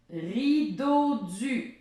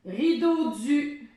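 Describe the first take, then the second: First: Rideau du stretched very slowly; teacher repeating slowly. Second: Rideau du higher and slow, rising; teacher quizzing; slow game word. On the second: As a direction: present Rideau du slowly. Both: Shown as a demonstration. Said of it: "je vais rajouter une syllabe".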